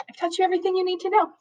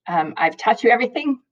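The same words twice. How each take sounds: First: Much higher, quick, sing-song emphasis on know; emphatic high repeat. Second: Said in the usual way. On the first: Real, not acted. Teacher assuring her students they know everything, high and fast. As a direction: lift it way up and rush it as the clincher.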